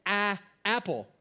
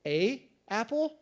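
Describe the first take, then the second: First: "Ah, apple" with "a" said as a short open "ah"; Rachel's "ah apple". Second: "A apple?" with "a" as a long "ay", slow, rising; slow questioning "A apple", long "ay" sound. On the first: Pastor imitating wife's "ah apple", "a" said as a short "ah". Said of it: "the way that she emphasized singular things would be to say". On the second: Pastor questioning wife's word, slow rising "A apple" with "ay". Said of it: "And I would say". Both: Retold or imitated.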